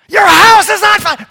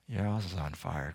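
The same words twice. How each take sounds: First: It is shouted with urgency. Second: It is said calmly and politely.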